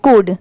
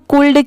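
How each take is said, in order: First: The L sound is silent before the D. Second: The L sound is pronounced before the D. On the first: The speaker calls it right. "ये जो letter एल है ये silent है" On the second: The speaker calls it wrong. "इसे हम कुल्ड क्यों नहीं पढ़ सकते?"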